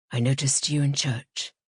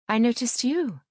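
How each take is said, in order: First: Lower-pitched man's voice; Piers Longridge. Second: Higher voice, stress on "you"; female narrator's reply. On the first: Man greeting a woman he knows after church, lower-pitched. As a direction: play a man, low and even. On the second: Woman returning a man's greeting after church, higher-pitched. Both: A narrator's reading.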